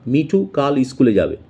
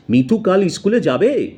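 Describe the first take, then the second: First: "Mithu কাল স্কুলে যাবে" said as a plain statement, falling at "যাবে"; statement tune. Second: "মিঠু কাল স্কুলে যাবে?" asked higher and louder, lifting through "যাবে"; question tune. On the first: Teacher shows students the statement "Mithu কাল স্কুলে যাবে". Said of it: "যেমন মনে করো আমি বলছি". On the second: Teacher shows students the question "Mithu কাল স্কুলে যাবে?". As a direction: ask it as a doubtful question. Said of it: "এইটা কিন্তু সুরের ওঠাপড়া হলো". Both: Shown as a demonstration.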